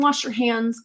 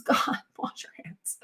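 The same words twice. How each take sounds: First: Said in the usual way. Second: Hushed, unvoiced plea with a laugh; exasperated aside. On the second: Real, not acted. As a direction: half-whisper it through a laugh, exasperated.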